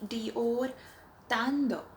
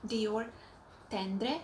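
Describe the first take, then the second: First: The name is said in a French-style way. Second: The name is said in an English-style way. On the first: The speaker calls it right. "it's supposed to be" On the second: The speaker calls it wrong. "I used to call it"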